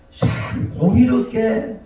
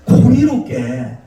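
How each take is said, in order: First: 참 공의롭게 very slow, high, without extra volume; drawn-out 참 공의롭게. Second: 공의롭게 drawn out, high and loud; stretched emphasis on 공의롭게. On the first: Preacher stressing how hard fairness is, 참 공의롭게 slowly drawn out and high. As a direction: linger on 참 and stretch 공의롭게. Slower repeat with intensifier. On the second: Preacher naming the next hard thing, 공의롭게 high, loud and stretched. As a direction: push out 공의롭게 slowly and forcefully. Emphatic repeat of key word. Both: Real, not acted.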